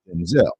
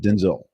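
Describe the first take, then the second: First: The stress is on the second syllable. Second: The stress is on the first syllable. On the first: The speaker calls it right. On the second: The speaker calls it wrong. "not Denzel with the E"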